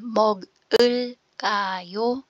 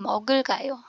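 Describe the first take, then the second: First: Each syllable is said separately, not linked. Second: The syllables run together in one linked flow. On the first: "'pag binasa mo siya per syllable" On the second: "naging Mogul Kayo, diretso"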